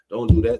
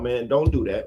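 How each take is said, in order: First: The voice is a little deeper. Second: The voice is at a normal, higher pitch.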